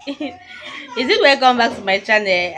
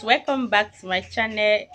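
First: Laughing self-doubt. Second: Said in the usual way. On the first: Real, not acted.

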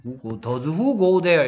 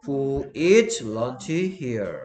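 First: "does who go there" spoken slowly as the mistake; slow wrong example. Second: "eats" drawn out and stressed, whole sentence very slow; very slow model answer. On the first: Teacher slowly showing students the wrong form. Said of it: "이런 거 없습니다". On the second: Teacher slowly modelling the correct question. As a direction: stretch out each word of "who eats lunch here". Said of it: "does who eat lunch here가 아니고". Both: Shown as a demonstration.

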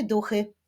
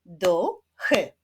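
First: Said in the usual way. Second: "Duchy" with a gap between the two syllables; split into syllables. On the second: Shown as a demonstration. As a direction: clap out "Duchy" beat by beat. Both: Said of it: "wyklaszczmy sylaby w wyrazie".

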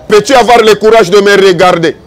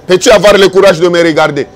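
The two takes are said the same way.

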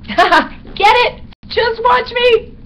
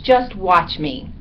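First: Very high, loud squeaky bat, slow on "Just watch me"; gleeful punning. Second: Slow, deliberate "Just watch me" at normal pitch; measured, self-assured delivery; confident resolve. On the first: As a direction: squeal the pun with delight. Bat repeats his line as pun. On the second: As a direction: say it slowly as a boast. First take, before the pun. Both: A narrator's reading.

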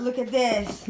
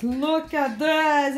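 First: Said in the usual way. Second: "Look at this" stretched very slow, x0.4; drawn-out look at this. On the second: Shown as a demonstration. Mum showing viewers the mess, "Look at this" very slow. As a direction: drag out "Look at this" slowly. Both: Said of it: "look at this, said twice".

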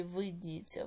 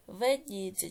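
First: "видніється" with a clear И; pronounced with И. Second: "Видніється" with E replacing the И; pronounced with E. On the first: Teacher offering pupils a spelling choice, "видніється" with И. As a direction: say "видніється" as vyd-NI-yet-sia. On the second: Teacher offering pupils a spelling choice, "Видніється" with E. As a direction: say "Видніється" as ved-NI-yet-sia. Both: Shown as a demonstration. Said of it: "яку букву Е чи И".

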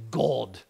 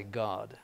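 First: God said with a long rounded "oh", like Gohd; British God. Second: God said with an open short "ah", like Gahd; American God. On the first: Priest showing students the British way to say God, long oh. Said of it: "British say God". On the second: Priest showing students the American way to say God, open ah. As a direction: flatten the O in God to a plain American "ah". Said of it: "Americans say God". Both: Shown as a demonstration.

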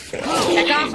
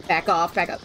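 First: Louder, higher warning. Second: Said in the usual way. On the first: Real, not acted. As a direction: raise the voice to shoo it off. Shooing enemy again, more forcefully.

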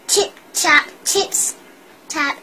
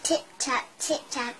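First: Stomp the tip-tap like a big goat; heavy tip-tap. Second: Soft, light tip-tap; quiet tip-tap. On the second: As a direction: tiptoe the tip-tap softly. Small goat crossing quietly. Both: A narrator's reading.

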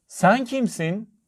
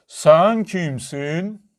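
First: High, slow calling voice; called out. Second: Very slow, stretched echoing call; mountain echo. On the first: Little girl calls to the unseen voice, high call. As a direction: call it out high, stretching the words. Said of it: "diye bağırdı". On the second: Mountain throws the girl's question back, drawn-out echo. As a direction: draw each word out long like an echo. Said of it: "Karşıki dağdan bir ses geldi". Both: A narrator's reading.

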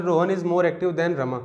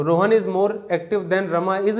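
First: Slow, deliberate read with "more" stressed and falling; slow dictation, stress on more. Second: Slow, deliberate read, the final "is" stressed with a rise; slow dictation, stress on final is. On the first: Teacher reading the shorter version to the class, slow with "more" stressed. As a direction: read it slowly and lean on "more". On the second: Teacher reading the full example sentence to the class, slow and deliberate. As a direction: spell it out slowly and lift the last "is". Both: Shown as a demonstration. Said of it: "लिखो या फिर".

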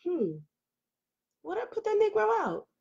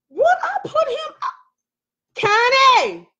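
First: High, soft pondering to herself; hesitant musing. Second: Very high, drawn-out mock-agonized holler. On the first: Retold or imitated. Woman retelling how she hesitated over the question, hesitant musing. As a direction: wonder it aloud in a small, high voice. Acting out her own hesitation. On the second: Streamer battling with the question calls out to Connie, hollering. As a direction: wail the question, then holler the name. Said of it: "why am I hollering".

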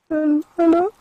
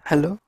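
First: Much higher, louder call with a rising end; high calling hello. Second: Said in the usual way. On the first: Real, not acted. Player calling into the empty cave, high loud rising hello.

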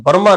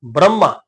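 First: ਬ੍ਰਹਮਾ mispronounced as barma; r after vowel. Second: ਬ੍ਰਹਮਾ as bramma, r straight after b; joined br onset. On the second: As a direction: run b and r together in ਬ੍ਰਹਮਾ. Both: Shown as a demonstration. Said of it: "ਬ੍ਰਹਮਾ ਨਹੀਂ ਪੜਨਾ".

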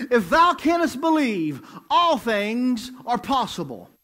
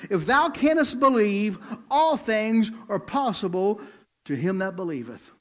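First: Louder, higher, slow emphatic repeat; full preaching. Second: Preaching Jesus' words. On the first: Preacher repeating the verse to the church, emphatic slow preaching. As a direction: drive the verse home like a revival preacher. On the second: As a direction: preach the verse with weight. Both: Acted. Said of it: "listen to Jesus' response".

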